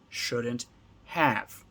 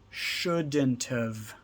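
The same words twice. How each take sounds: First: 'Have' is said as a full separate word. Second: 'Have' is contracted to a short 've sound. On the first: "Two words" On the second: "a bigger contraction using all three of the words"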